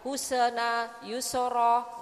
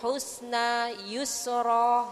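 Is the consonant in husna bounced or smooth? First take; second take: bounced; smooth. First: The consonant is said with an echoing bounce. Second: The consonant is said smoothly without a bounce. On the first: The speaker calls it wrong. "nggak boleh gitu" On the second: The speaker calls it right. "tidak ada pantulan"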